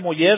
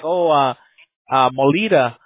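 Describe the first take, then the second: First: The double L is sounded the Spanish way. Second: The double L is sounded like an English L. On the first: The speaker calls it right. "when you said Molleda, I was like, hey, man, you know, how'd you do that" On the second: The speaker calls it wrong. "people don't pronounce that double L correct"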